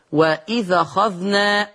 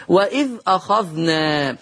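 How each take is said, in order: First: وإذ أخذنا linked as "wa-idhakhadhna"; hamza dropped. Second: Said in the usual way. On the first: Shown as a demonstration. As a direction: carry the a of أخذنا onto the ذ of وإذ. (وإذ أخذنا بنقل حركة الهمزة) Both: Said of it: "يقرأ ورش بالنقل".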